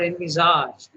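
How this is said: The word is said with a French pronunciation.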